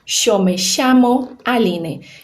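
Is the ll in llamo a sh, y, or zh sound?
sh. The ll sounds like an English sh. This is how the River Plate region says it. "Esse som de che vai ser o som do Y e doble L"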